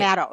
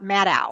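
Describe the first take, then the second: First: The name rhymes with shadow. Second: The name does not rhyme with shadow. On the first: The speaker calls it right. "like shadow" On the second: The speaker calls it wrong. "It's not Maddow"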